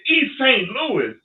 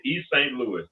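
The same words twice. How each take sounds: First: High, loud and slow, can't believe it; incredulous echo. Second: Said in the usual way. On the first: Retold or imitated. Echoing the young fighter's answer in high slow disbelief. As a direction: drag it out in disbelief.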